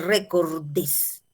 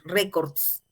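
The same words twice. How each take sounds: First: "recordes" drawn out with an added -es syllable; wrong plural form. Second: "records" with final -s straight after the consonants; correct plural form. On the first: Teacher shows the form to avoid, slow "recordes". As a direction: slowly sound out the extra DES in "recordes". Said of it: "pero no vas a decir". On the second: Teacher gives the accepted plural, "records" without added -es. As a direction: end "records" without any extra syllable. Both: Shown as a demonstration.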